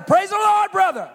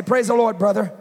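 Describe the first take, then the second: First: Louder, higher praise the Lord; repeating it louder to be understood. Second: Said in the usual way. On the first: Retold or imitated. Preacher repeating louder to foreign visitors, raised voice. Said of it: "I'd say it louder". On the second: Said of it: "give them a hug and say".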